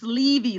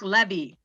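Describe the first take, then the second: First: The first vowel is a long e sound. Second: The first vowel is a short e sound. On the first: The speaker calls it right. "It's Levy, long E" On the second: The speaker calls it wrong. "some people say Mark Levy"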